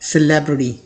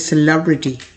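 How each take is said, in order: First: It is said in an American English accent. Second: It is said in a British English accent. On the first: "American English में" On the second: "British English में"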